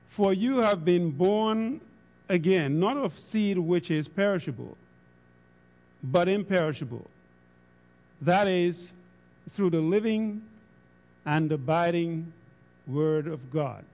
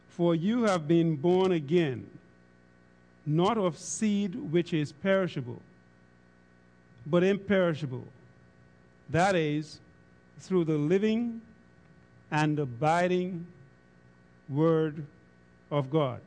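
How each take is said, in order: First: It is read at a normal pace. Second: It is read slowly and deliberately.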